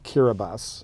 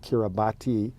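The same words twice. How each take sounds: First: The 'ti' is said as 's'. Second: The 'ti' is said as 'tee'. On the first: The speaker calls it right. "it's actually pronounced Kiribati" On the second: The speaker calls it wrong. "It looks like Kiribati"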